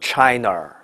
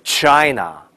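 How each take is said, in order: First: The ending is said with a curled r sound. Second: The ending is said with no r sound. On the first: The speaker calls it wrong. "不要读成China 啊" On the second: The speaker calls it right. "这叫China"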